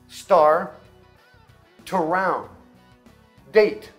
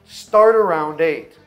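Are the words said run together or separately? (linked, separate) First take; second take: separate; linked. First: The words are said slowly as separate pieces. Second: The words are said quickly and run together.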